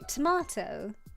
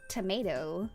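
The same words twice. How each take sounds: First: It is said with a British-Australian pronunciation. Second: It is said with an American pronunciation. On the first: The speaker calls it right. "we both say tomato, which is the proper way of saying it" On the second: The speaker calls it wrong. "in like the way that Americans say it"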